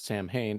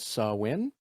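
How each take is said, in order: First: The word is said the way it is spelled. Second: The word is said unlike the way it's spelled. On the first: "as you would read it" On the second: "is apparently pronounced as"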